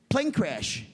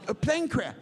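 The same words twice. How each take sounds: First: Lightly mimicked Italian messenger; imitated Italian accent. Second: Higher-pitched mock Italian messenger; imitated Italian accent. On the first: Italian man reporting bad news to banker, light Italian accent. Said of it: "an Italian midget". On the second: Italian man repeating bad news to banker, high Italian accent. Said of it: "He goes".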